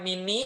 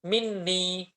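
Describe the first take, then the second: First: The n sound is short and single. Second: The n sound is held and doubled. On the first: The speaker calls it wrong. "bukan mini" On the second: The speaker calls it right. "tapi minni"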